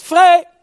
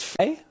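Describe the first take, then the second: First: High, loud cry of Vrij; loud, high shout of freedom; shouted call. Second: Light call. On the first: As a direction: shout Vrij to throw the cage open. God calls freedom loudly. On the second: God calls to caged bird. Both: Pretend.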